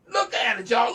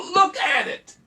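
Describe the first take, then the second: First: Raised, insistent urging; insistent but held back; worked up. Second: High, loud shout; full worked-up shout. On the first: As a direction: push them to look, somewhat loud. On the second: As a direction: yell it at full force. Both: Real, not acted. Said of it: "I'm getting worked up here".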